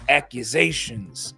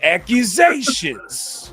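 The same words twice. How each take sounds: First: It is said in the speaker's natural voice. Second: It is said in an imitated put-on voice.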